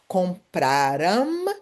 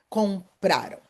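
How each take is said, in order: First: The stress is on the last syllable. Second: The stress is on the second-to-last syllable. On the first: The speaker calls it wrong. "So it's not compraram" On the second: The speaker calls it right. "the stress syllable is the second one from the end"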